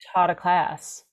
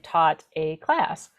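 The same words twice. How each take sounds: First: The words run together as one unit. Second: Each word is said clearly and separately. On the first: "would be one sound unit" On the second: "but it's actually"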